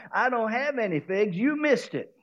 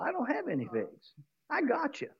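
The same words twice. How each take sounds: First: Taunting tree. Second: Softer, teasing tree voice; whisper-close gloating over the trick; hushed mocking tree; quiet taunt. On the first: Acted. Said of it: "the fig tree says". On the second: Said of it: "the tree laughs at him and says".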